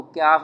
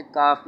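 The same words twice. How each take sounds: First: क्याफ with a y-glide after the k; kyaaf variant. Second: काफ with a light k and no glide; kaaf variant. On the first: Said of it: "इसको क्याफ भी बोलते हैं". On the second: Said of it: "इसे काफ भी बोलते हैं". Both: Shown as a demonstration.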